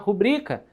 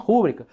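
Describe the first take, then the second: First: The stress is on the second syllable. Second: The stress is on the first syllable. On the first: The speaker calls it right. "é uma rubrica" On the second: The speaker calls it wrong. "não uma rúbrica"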